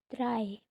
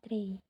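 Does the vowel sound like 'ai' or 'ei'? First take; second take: ai; ei. First: The vowel sounds like 'ai'. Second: The vowel sounds like 'ei'. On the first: The speaker calls it right. "bacanya dry" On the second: The speaker calls it wrong. "bukan tray"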